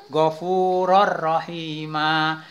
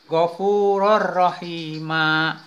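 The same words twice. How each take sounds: The two takes are said the same way.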